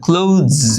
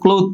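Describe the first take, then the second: First: The word ends with a buzzing z sound. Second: The word ends with a soft th sound. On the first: The speaker calls it right. "এখানে জয়ের মতো একটা উচ্চারণ হবে" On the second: The speaker calls it wrong. "cloth পড়ো তোমরা"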